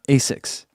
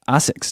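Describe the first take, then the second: First: The name is said with American English pronunciation. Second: The name is said with Japanese pronunciation. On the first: "not ASICs" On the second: "they say ASICs"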